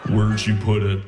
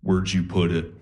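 First: Low, creepy, breathy-sounding Buffalo Bill imitation; mock serial-killer creep voice. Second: Low, eerie sleepwalker murmur; lightly voiced creepy half-asleep girlfriend; creepy low sleep-talk voice. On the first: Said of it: "Why do you sound like Buffalo Bill?". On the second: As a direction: drop low like a possessed sleeper. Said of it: "she just turns to me and goes".

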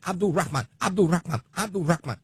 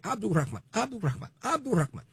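First: "Abdul Rahman" loud and high, punched each time; imitated name pronunciation. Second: "Abdul Rahman" echoed much higher, at normal volume; copied name pronunciation. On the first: Radio host imitating how a man insists his name be said, punched and loud. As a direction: fire off "Abdul Rahman" like an insistent correction, raised pitch. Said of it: "He said it just like that".

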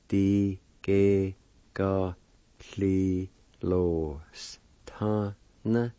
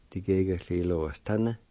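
First: Slow, stretched syllables with gaps. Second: Said in the usual way. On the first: Shown as a demonstration. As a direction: break it into separate held sounds. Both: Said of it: "it spells like this".

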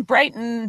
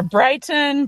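First: Brighton with a clear released T; careful T. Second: Brighton with the T caught in the throat; glottal T. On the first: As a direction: say Brighton with a crisp T. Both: Shown as a demonstration. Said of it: "very difficult with that".

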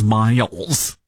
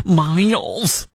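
First: Said in the usual way. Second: Put-on Michigan accent on Miles. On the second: Radio host repeats the owner's name, Michigan accent. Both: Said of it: "that's my Michigan accent".

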